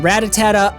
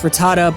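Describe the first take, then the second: First: The name is said with an extra syllable. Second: The name is said without an extra syllable. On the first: The speaker calls it wrong. "I added that extra syllable" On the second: The speaker calls it right. "I know it's Rattata"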